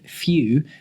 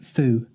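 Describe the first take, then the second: First: The vowel is a glided 'yoo' sound. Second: The vowel is a plain 'oo' sound. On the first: "instead of few" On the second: "they say foo"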